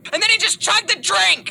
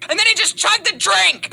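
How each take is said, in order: First: Excited shout. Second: Loud, high, thrilled telling; excited shout. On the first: Climax of story, shouted. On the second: Retake of climax. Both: Retold or imitated. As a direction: shout the punchline.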